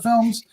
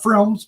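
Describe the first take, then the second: First: Said in the usual way. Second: "films" garbled with a stray r, like "frilms"; slip of the tongue. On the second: Shown as a demonstration. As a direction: trip over "films", slipping an r in after the f. Corrects own slip of the tongue.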